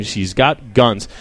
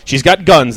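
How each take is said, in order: First: Slow emphatic repeat. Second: Said in the usual way. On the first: Shown as a demonstration. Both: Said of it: "that's right, Ian".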